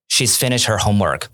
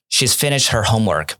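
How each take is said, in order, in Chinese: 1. 'She has' 缩读为一个音节。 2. 'She has' 缩读为一个音节。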